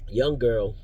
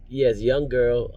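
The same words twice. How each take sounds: First: Said in the usual way. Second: Put-on "young girl" drawn out slowly, leaning on "young"; stressing young girl. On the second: Shown as a demonstration. Driver stressing "young girl" to viewers.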